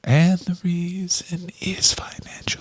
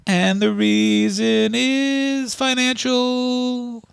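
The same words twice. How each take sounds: First: Hushed breathy repeat of the line; whispered. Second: Slow, high crooned line; sung like the band. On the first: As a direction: whisper it like a secret. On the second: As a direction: sing it like a power ballad. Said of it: "they sing that song". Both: Pretend.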